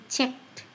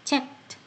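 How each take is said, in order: The two takes are said the same way.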